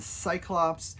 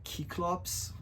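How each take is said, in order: First: The word begins with a soft S sound. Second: The word begins with a hard K sound.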